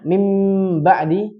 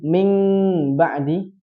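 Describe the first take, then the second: First: The nasal is a full m with closed lips. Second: The nasal sounds like ng with open lips. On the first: "dia dianggap idgham" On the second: "dia bacanya ikhfa"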